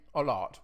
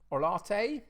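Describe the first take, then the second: First: The final E is left silent at the end. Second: The final E is sounded at the end. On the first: "Pronounce the E on the end or not?" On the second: "Pronounce the E on the end or not?"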